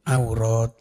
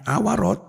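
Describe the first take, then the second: First: No vowel follows the middle consonant. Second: A vowel follows the middle consonant. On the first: The speaker calls it right. "tapi aurat itu" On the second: The speaker calls it wrong.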